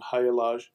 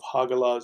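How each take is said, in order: First: The middle consonant is a y sound. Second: The middle consonant is a hard g. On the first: "would pronounce something as a Y" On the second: "We pronounce it as a G"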